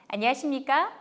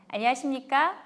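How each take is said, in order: The two takes are said the same way.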